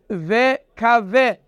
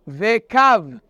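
First: The word ends with a final vowel sound. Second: The word ends with a final consonant sound. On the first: This follows the written letters literally. The speaker calls it wrong. "That reads vekave. But we don't read it vekave" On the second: This follows the traditional reading. The speaker calls it right. "We read it vekav. We just ignore the he"

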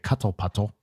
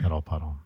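First: The middle consonants are clearly pronounced. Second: The middle consonants are replaced by glottal stops. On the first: "I could pronounce the letters instead of doing the glottal stop" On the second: "instead of doing the glottal stop"

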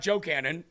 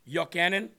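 First: The name begins with a J sound. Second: The name begins with a Y sound. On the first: The speaker calls it wrong. "It's not Joe Cannon" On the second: The speaker calls it right. "the J in Hebrew is really pronounced like a Y"

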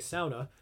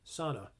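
First: It is said with the Finnish-style pronunciation. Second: It is said with the common American pronunciation. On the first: The speaker calls it right. "people from the Upper Peninsula or Finland, where they originate from, will know that I'm saying that correctly" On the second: The speaker calls it wrong. "Everybody else will go, [name], it's pronounced sauna. No, it's not"

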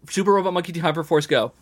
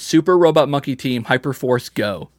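First: It is said at a fast pace. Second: It is said at a slow pace.

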